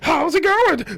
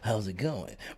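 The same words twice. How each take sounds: First: It is said in a loud, overexcited voice. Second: It is said in a calm, normal voice.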